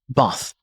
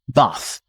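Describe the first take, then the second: First: The vowel is short and flat, like 'bath'. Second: The same.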